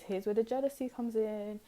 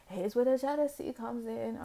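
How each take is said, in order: First: Said in the usual way. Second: Same line again, higher and theatrical; dramatic reveal. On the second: Shown as a demonstration. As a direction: tease the juicy part like a gossip.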